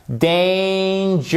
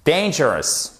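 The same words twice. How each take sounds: First: DANGEROUS stretched slowly over three syllables; slow, high teaching demo of DANGEROUS. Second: Said in the usual way. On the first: Shown as a demonstration. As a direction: draw out DANGEROUS, high and held. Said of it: "trois syllabes".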